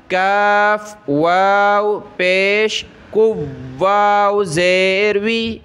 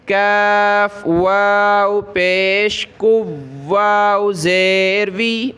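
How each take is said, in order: Both takes have the same delivery.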